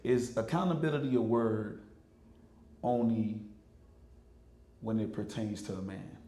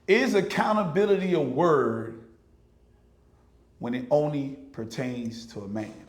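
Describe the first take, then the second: First: It is said at normal volume. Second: It is said louder than before.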